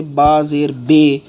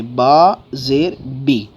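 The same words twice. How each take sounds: First: "با زیر بے" ending on bay; wrong reading. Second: Slow "با زیر بی" ending on bee; drawn-out model of "با زیر بی", pure long ee at the end; correct reading. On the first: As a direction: slowly show the error, "بے" with an ay vowel. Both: Shown as a demonstration. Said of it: "نہیں کرنا ہے".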